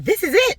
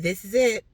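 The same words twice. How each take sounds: First: It is said emphatically, like an exclamation. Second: It is said flatly, like a period.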